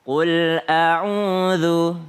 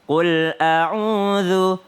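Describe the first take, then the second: Both takes have the same delivery.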